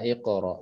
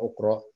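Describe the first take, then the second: First: The word begins with an i vowel. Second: The word begins with a u vowel. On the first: The speaker calls it right. "hamzah wasalnya dibacanya i gitu ya iqra" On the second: The speaker calls it wrong.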